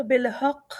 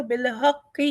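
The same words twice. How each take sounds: First: بالحق with the shadda weighted and an echoing qaf at the stop; pause with qalqalah. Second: بالحق read joined with a light qaf; continued reading. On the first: Teacher shows stopping with qalqalah. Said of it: "اگر ہم لا نہیں لیتے". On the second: Teacher shows reading on at the la sign. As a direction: read on through بالحق without stopping. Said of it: "اگر ہم لا کو لیتے ہیں". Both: Shown as a demonstration.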